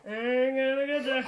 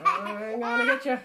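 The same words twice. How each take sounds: First: Laughing threat. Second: High, loud, laughing I'm gonna get ya; playful threat. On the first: Mother teasing her son again, laughing through it. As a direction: giggle through the words. Playful chase with the child. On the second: Mother playfully chasing her little son, loud and laughing. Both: Real, not acted.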